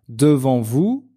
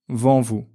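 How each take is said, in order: First: The 'de' syllable is fully pronounced. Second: The 'de' syllable is dropped.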